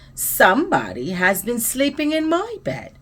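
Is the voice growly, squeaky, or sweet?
sweet. It is said in a sweet, low voice. "exclaimed in her sweet, low voice"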